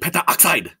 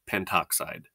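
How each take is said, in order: First: The full 'penta' is said before 'oxide'. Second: The 'a' is dropped, merging into 'oxide'. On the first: The speaker calls it wrong. "If you didn't shorten it up, it would say sound like this" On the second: The speaker calls it right. "we kind of mush them together"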